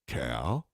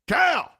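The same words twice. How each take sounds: First: It is said in a coaxing, questioning tone. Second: It is said as a sharp, pained exclamation.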